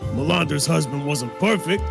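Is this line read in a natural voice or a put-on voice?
put-on. It is read in a put-on character voice. The speaker calls it right.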